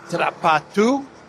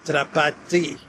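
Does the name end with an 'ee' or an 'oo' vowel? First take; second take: oo; ee. First: The name ends in an 'oo' vowel. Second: The name ends in an 'ee' vowel. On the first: "Some commentators pronounce his last name as Drapatu" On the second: "if you go by the Cyrillic spelling of his last name, it would be pronounced as Drapati"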